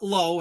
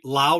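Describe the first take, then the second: First: The vowel sounds like the one in 'go'. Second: The vowel sounds like the one in 'cow'. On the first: The speaker calls it wrong. "not Low" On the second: The speaker calls it right. "I said it right. Lau"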